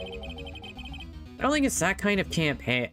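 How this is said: It is said in a different character's voice.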